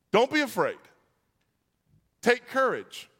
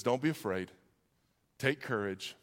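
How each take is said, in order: First: High, emphatic call over a storm; proclaiming. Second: Low, soft, calming delivery; gentle reassurance. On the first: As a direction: proclaim each phrase firmly, with pauses between. First take of Jesus's three things. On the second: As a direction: comfort someone quietly, phrase by phrase. Repeats Jesus's words as comfort. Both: Acted.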